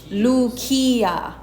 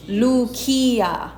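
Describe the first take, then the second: First: The c is said as a hard k. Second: The c is said as a hard k.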